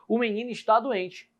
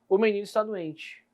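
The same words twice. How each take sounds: First: It is said as a forceful exclamation. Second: It is said trailing off at the end. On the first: The speaker is exclaiming that the boy is sick. "agora pode ser uma exclamação" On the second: Something more is left unsaid about the boy being sick. "Mas eu posso ter também uma reticências"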